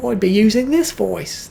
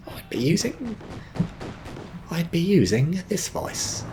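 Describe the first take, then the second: First: High British accent slipping into Australian; botched British accent. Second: Slower, softer British attempt sounding Australian; retry British slowly, high-pitched, drifting into Australian; botched British accent. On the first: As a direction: attempt British, land closer to Australian. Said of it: "sounded a little more Australian". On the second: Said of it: "That's also sounded Australian". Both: Shown as a demonstration.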